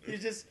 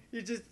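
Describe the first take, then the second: No difference in how they are said.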